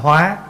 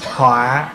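First: The word has a high rising tone. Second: The word has a heavy, low glottalized tone. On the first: One lives by adapting and transforming. "bỏ dấu sắc vô thành hóa" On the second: It becomes a disaster. "dấu nặng"

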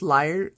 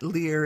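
First: The word rhymes with 'fire'. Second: The word rhymes with 'ear'. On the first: The speaker calls it right. "it's liar" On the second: The speaker calls it wrong. "not Lear"

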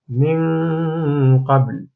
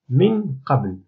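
First: The n is hidden, leaving only a nasal hum. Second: The n sound is pronounced clearly and fully. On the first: The speaker calls it right. "أن النون لم يعد لها، كأنها غير موجودة" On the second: The speaker calls it wrong. "خطأ"

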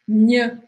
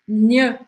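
Both takes have the same delivery.

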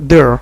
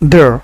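First: The word ends with an audible r sound. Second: The word ends with an audible r sound.

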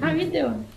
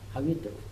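First: It is said in an acted character voice. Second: It is said in a plain narrating voice.

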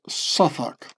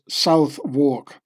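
First: It is shortened to two quick syllables, Suthuk. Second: Both parts are said fully, as South-wark. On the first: "but the Londoners pronounce Suffolk" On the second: "which Americans would pronounce Southwark"

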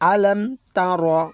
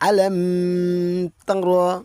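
First: The phrase is said quickly with short vowels. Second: The phrase is drawn out with a nasal hold. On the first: The speaker calls it right. "আলাম কথাটা দ্রুত বলে, তারা কথাটাও দ্রুত বলে, এখানে কোনো টান নেই" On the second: The speaker calls it wrong. "এখানে অনেক ভাই রয়েছে যারা এখানে গুন্না করে ফেলে, এইভাবে বলে অনেকে"

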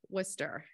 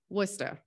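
First: It is said in a general, neutral accent. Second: It is said in a Massachusetts accent. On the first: "Worcester is pronounced Worcester" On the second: "your best Massachusetts accent"

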